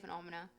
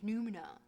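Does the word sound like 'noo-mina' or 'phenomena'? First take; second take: phenomena; noo-mina. First: The word sounds like 'phenomena'. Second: The word sounds like 'noo-mina'. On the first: The speaker calls it wrong. "but I say" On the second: The speaker calls it right. "I know it's pronounced"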